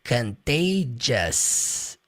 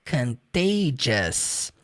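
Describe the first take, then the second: Both takes have the same delivery.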